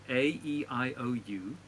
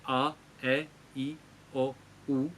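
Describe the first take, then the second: First: The vowels are said as their letter names. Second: The vowels are said as pure vowel sounds.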